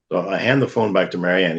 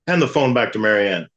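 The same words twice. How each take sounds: First: Said in the usual way. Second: Deaf priest's order. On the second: Retold or imitated. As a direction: bark "Hand the phone back to Marianne" like a half-deaf priest. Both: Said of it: "he talks like everybody's starting to go deaf".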